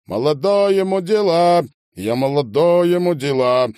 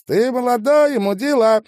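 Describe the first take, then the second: First: Loud, raised sung line; chanted, high drawled refrain; drawn-out chanting. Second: Sung, very high, loud falsetto echo; sung, high backing-singer wail; singing along. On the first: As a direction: chant it out loudly, drawing out the words. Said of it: "тянул говно". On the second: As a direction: join in on the chant in a loud falsetto. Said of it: "подтягивал басист". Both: A narrator's reading.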